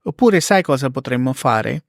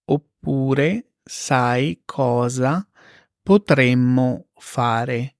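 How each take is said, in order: First: Said in the usual way. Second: Very slow, spaced repeat; slow teacher model; slow and clear. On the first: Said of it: "example then slow repeat". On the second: Shown as a demonstration. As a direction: drag it out for learners. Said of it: "slow repeat for learners".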